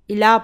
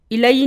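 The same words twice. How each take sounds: First: الا ending on a plain long aa, no ee sound; الا, the alif maqsura sounding like aa; correct reading. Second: الائی said with a long ee sound at the end; الائی with the final ya voiced, the way not to say it; wrong reading. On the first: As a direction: say الا with the final ya read as alif. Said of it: "الا پڑھتے ہیں". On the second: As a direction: read الائی pronouncing the final ya as ee. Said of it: "الائی نہیں پڑھتے". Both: Shown as a demonstration.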